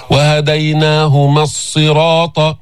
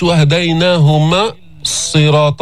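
First: Slow chant, وهديناهما running short straight into الصراط; smooth linked recitation of وهديناهما الصراط; dropped alif. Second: وهديناهما broken off with a pause before الصراط; faulty recitation, halting after وهديناهما; wrongly cut. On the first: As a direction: join وهديناهما to the doubled ص without a gap. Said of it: "هذه الألف تحذف". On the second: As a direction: chop a gap between وهديناهما and الصراط. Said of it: "بتعملها القطشة". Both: Shown as a demonstration.

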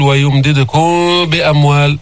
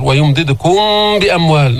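First: Wrong ويمددكم بأموال, lips apart on the held م; faulty open ikhfa. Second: ويمددكم بأموال with a held m before ب; nasal م flowing into بأموال; lips-closed ikhfa. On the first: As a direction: hum the end of ويمددكم without closing the lips. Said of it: "ولا منقول". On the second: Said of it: "نفس اللفظ". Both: Shown as a demonstration.

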